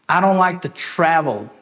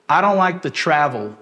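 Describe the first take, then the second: Both takes have the same delivery.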